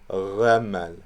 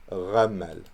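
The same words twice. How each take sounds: No difference in how they are said.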